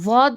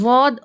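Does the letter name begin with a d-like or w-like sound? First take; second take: w-like; w-like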